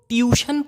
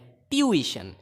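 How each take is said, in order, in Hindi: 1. यह दो अक्षरों में बोला जाता है, tyoo-shun। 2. यह तीन अक्षरों में बोला जाता है, tyoo-i-shun। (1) "बहुत लोग ट्यूशन पढ़ते हैं जो कि गलत है" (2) "ये ट्यूइशन है"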